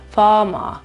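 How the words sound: Neither r is pronounced, only long vowels. "Fama, senza nessun tipo di R"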